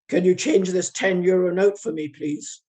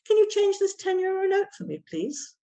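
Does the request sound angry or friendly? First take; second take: angry; friendly. First: It sounds angry, without the rise at the end. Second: It sounds friendly, with a little rise at the end. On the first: The speaker seems hostile despite the polite words. The speaker calls it wrong. "Which sounds very angry" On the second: The speaker is making a polite request. The speaker calls it right. "That little flick up at the end ... That and a smile"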